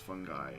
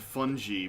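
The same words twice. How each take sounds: First: The word sounds like 'fun guy'. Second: The word does not sound like 'fun guy'. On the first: The speaker calls it right. "That just sounds like you're saying fun fun guy" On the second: The speaker calls it wrong. "because that's the way it looked to me"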